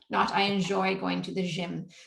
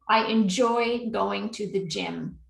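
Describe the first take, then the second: First: The word 'gym' starts with a soft 'zh' sound. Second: The word 'gym' starts with a hard 'j' sound. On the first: The speaker calls it wrong. "you just said je" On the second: The speaker calls it right. "you're doing it correctly now with a j"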